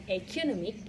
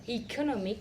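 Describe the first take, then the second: First: The first vowel sounds like the letter a. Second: The first vowel sounds like the letter e. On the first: "and a" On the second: "in initial vowel e"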